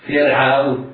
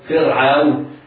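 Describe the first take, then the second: No difference in how they are said.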